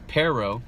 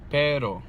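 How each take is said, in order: First: Both the P and the R sound English. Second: The R is flapped but the P is breathy. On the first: "listen to the English pronunciation first" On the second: "you flick that R one time, but you're still pronouncing the P wrong"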